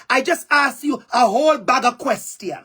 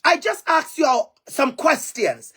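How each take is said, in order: First: A light Jamaican patois phrasing; lightly Jamaican-flavoured delivery; Jamaican dialect. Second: Said in the usual way. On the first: Shown as a demonstration. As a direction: say it the Jamaican way, easy and natural. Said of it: "And some parts in Jamaica, we would say". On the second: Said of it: "we would say".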